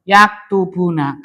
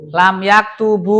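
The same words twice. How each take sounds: First: Yaktubuna read slowly with the final nun clearly kept; full form with nun. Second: Lam yaktubu read slowly, ending on a bare u with no nun; jussive form without nun. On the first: Teacher reads the verb to students, nun kept, slowly. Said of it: "Tetapnya huruf nun". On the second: Teacher shows students the jazm form, dropping the nun slowly. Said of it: "Baca lam". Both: Shown as a demonstration.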